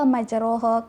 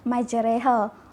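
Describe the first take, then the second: First: The vowel after r sounds like o. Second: The vowel after r sounds like e. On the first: The speaker calls it wrong. "majroha ke, tapi uh, semua tu salah" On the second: The speaker calls it right. "Kataan yang sebenar yang betul adalah majreha"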